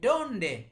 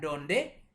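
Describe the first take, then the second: First: The stress is on the first syllable. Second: The stress is on the second syllable. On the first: The speaker calls it right. "tapi donde" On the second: The speaker calls it wrong. "bukan donde"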